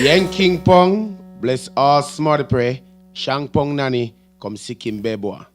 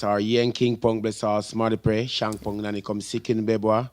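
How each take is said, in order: First: It is said at a slow pace. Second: It is said at a quick pace.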